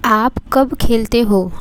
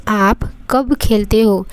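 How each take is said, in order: Both takes have the same delivery.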